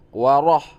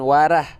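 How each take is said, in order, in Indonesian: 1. Bunyi r dibuat berat dan tebal. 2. Bunyi r dibuat ringan dan tipis. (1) "misalnya Assalamualaikum waroh waroh" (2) "bukan warah. kalau warah berarti belum tebal"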